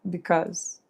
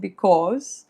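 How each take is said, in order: First: It has an American accent. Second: It has a British accent with an O vowel. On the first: "in American English, it would be more because" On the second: "in British English, it would be more like because with an O"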